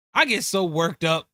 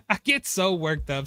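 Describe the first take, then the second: First: Said in the usual way. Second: Laughing at himself through "I get so worked up"; sheepish giggle while confessing. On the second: Real, not acted.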